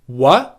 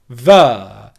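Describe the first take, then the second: First: The word begins with a W sound. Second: The word begins with a V sound. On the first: The speaker calls it right. "pronounce the W sound" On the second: The speaker calls it wrong. "as a V sound and say ver"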